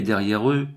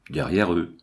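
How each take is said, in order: First: Pointed "derrière eux", pitched up; insisting. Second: "derrière eux" dropped low, falling at the end; dismissive echo. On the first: Watchman corrects his chief, insisting on "derrière eux". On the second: Chief echoes the watchman, dismissive "Derrière eux". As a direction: throw "Derrière eux" back in a lower pitch. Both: A narrator's reading.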